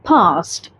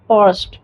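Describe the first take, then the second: First: The R is dropped, leaving a plain vowel. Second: The R is clearly pronounced after the vowel. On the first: "हम आर को अ pronounce करते हैं" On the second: "अगर आप American accent follow करते हैं तो आप इसे पढ़ेंगे"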